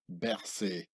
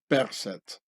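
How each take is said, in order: First: The name is said in a French way. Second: The name is said in a non-French way. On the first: The speaker calls it wrong. "French camouflaged pronunciation Berset" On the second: The speaker calls it right. "the original Pharaonic way of Berset"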